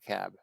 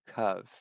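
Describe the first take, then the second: First: The word ends with a b sound. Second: The word ends with a v sound. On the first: The speaker calls it wrong. "not cab" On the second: The speaker calls it right. "So kav"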